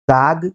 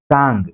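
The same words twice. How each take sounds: First: ताग with a plain long a; oral vowel. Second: तांग with long a through the nose; nasalised vowel. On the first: Teacher reading a minimal pair, ताग with oral vowel. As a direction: keep the a of ताग out of the nose. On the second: Teacher reading a minimal pair, तांग with nasalised vowel. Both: Shown as a demonstration. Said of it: "जो अनुनासिकता यहाँ पर है".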